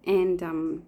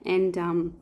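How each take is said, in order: Both takes have the same delivery.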